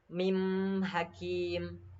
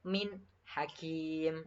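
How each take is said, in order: First: The n sound is nasalized and blended. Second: The n sound is kept clear without nasalizing. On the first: The speaker calls it wrong. "tidak boleh eh, kita membacakan bacaan ini dengan seperti ini" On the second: The speaker calls it right. "harus jelas bacaannya. Min hakim seperti itu"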